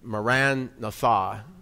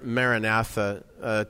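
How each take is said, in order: First: It is pronounced the original Aramaic way. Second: It is pronounced the commonly heard way. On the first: The speaker calls it right. "more Aramaically correctly" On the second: The speaker calls it wrong. "We hear this word"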